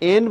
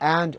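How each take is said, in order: First: The vowel sounds like 'e' in 'bed'. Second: The vowel sounds like 'a' in 'cat'. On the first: The speaker calls it wrong. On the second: The speaker calls it right.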